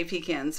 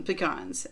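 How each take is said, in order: First: "pecans" said PEE-cans, stress on the first syllable, short flat a; Southern pecans. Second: "pecans" said pih-KAHNS, stress on the second syllable, open ah; "pecans" with a broad ah in the second syllable; own pecans. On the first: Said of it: "A true Southerner would say pecans". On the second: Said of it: "but, um, pecans". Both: Shown as a demonstration.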